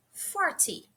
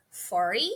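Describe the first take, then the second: First: Forty with a clear t, for-ty; careful forty. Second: Forty with a flapped t, like fordy; relaxed forty. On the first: Teacher showing students the careful forty. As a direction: say forty with a crisp t. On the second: Teacher showing students the casual forty. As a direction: soften the t in forty. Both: Shown as a demonstration. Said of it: "também duas formas".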